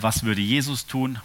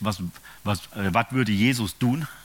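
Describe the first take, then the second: First: It is said in standard German. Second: It is said in a Saxon accent.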